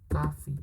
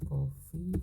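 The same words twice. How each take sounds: First: Coffee with a flat American a, kafi. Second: Coffee with an open British o, kofi. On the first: Teacher to student, showing the American coffee. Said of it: "satunya punya American". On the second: Teacher to student, showing the British coffee. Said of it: "Satunya punya British". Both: Shown as a demonstration.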